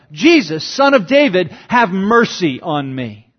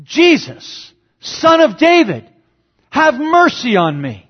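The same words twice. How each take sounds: First: A touch of a beggar's call, barely raised; half-voiced plea from the roadside; mild retold yell. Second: Much higher and louder pleading cry; desperate cry out. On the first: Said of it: "The blind man yells out". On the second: Retold or imitated. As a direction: cry out for mercy over the crowd. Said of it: "he cries out".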